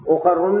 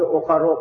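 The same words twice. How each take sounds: First: उखरुन with a final "-un", n sounded; nunated ending. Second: उखरो with an open final vowel, no n; ending without nunation. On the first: Teacher showing students the rejected form, nunated ending on उखरुन. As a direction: end उखरुन on a clear nunation. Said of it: "नहीं कहा बल्कि उखरो कहा". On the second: Teacher showing students the form used, no nunation on उखरो. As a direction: drop the n, end उखरो on the vowel. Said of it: "बल्कि उखरो कहा". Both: Shown as a demonstration.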